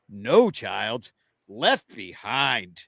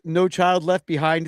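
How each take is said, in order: First: The phrase is said with pauses between words. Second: The phrase is said smoothly without inner pauses. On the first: "They just pronounced it like this" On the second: "it was called"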